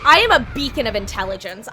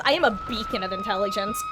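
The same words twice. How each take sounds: First: Loud sarcastic self-mockery; mock herself loudly. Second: Very high squeaky mocking voice; high silly voice. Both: Real, not acted. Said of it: "repeats the line in another voice".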